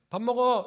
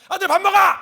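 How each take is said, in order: First: It is a plain, calm call to eat. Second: It is an angry call to eat.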